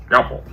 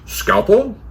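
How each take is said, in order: First: Short "Scalpel" as a statement, no questioning rise; answering echo. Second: High questioning "Scalpel", rising at the end; questioning rise. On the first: Cleaner hands over the instrument, "Scalpel" as a brief answer. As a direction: echo "Scalpel" back as a confirmation. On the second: Surgeon asks cleaner for an instrument, "Scalpel" rising high. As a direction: ask "Scalpel" high, as a request. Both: Acted.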